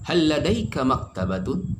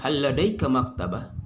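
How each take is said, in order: First: The last word ends with its full case ending. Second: The last word ends without its case ending. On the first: "tidak sukunkan, dibaca dengan sempurna" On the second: "di akhir suatu kata ... bisa disukunkan"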